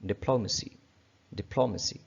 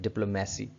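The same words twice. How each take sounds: First: डिप्लोमेसी with stress on plo, di-PLO-mə-si; correct pronunciation. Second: डिप्लोमेसी with a long me, dip-lo-MAY-si; common mispronunciation. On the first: Teacher modelling the right डिप्लोमेसी. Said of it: "ये word कुछ इस तरह से मिलता है डेमोक्रेसी से". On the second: Teacher showing learners the wrong डिप्लोमेसी. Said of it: "हम लोग इसको कैसे पढ़ते हैं?". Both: Shown as a demonstration.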